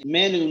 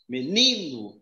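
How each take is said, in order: First: The stress is on the first syllable. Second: The stress is on the second syllable. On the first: The speaker calls it wrong. "se eu colocar aqui um acento aqui no me e pronunciar aqui com mais força" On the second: The speaker calls it right. "se eu colocar aqui no ni e pronunciar com mais força"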